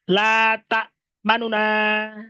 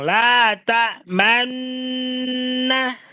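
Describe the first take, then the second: First: The two n sounds are split by a short vowel. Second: The two n sounds merge into one long n. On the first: "nunnya dibaca sepertiga harokat" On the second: "mengidomkan semua semua huruf nun ke pertama ke nun yang kedua"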